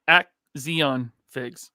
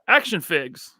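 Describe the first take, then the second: First: The first word sounds like 'axion', with an 'ks' sound. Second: The first word sounds like the ordinary word 'action'. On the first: The speaker calls it wrong. "I used to say Axion Figs" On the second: The speaker calls it right. "I'm saying it correctly now"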